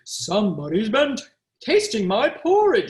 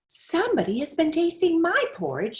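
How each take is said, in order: First: It is said in a big, deep voice. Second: It is said in a medium-sized voice. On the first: The largest bear is speaking. "said the great big bear in his great big voice" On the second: The middle-sized bear is speaking. "said the middle-sized bear in her middle-sized voice"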